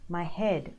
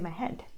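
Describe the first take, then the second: First: The final D is voiced with a longer vowel. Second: The final D is short and sounds like T. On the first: The speaker calls it right. "like head" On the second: The speaker calls it wrong. "You can't say my head. And it sounds like a hat"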